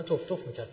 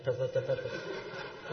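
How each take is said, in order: First: Said in the usual way. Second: Slow, soft spitting stammer imitating a mangled FATF; mock sputtering. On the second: MP fails to pronounce FATF, mocked with slow sputtering. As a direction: sputter "تف تف تف تف" slowly like a stuck tongue.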